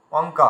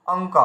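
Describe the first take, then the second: First: অঙ্ক as অ + ঙ + ক, the ng clearly heard; anusvara as ng. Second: অঙ্ক said "ong-k", ng then a short k; anusvara as ng. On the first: Teacher blending the sounds of অঙ্ক for students. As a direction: put অঙ্ক together from its sounds, ng first. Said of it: "মানে অ উয়ায় কয়". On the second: Teacher demonstrating অঙ্ক slowly to the class. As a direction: sound out অঙ্ক with a clear ng. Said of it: "এইভাবে উচ্চারণ করছি". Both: Shown as a demonstration.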